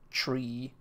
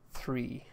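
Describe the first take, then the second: First: The word begins with a hard 't' sound. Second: The word begins with a soft 'th' sound. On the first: "I would say tree, like a tree in the woods" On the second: "pronouncing three with a H in it"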